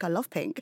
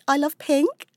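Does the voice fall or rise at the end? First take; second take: fall; rise. First: The voice falls confidently at the end. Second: The voice rises uncertainly at the end. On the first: The speaker states it with certainty. The speaker calls it right. "I don't know why I'm so uncertain" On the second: The speaker sounds unsure of the statement. The speaker calls it wrong. "every word I'm enunciating is so like intonated at the end"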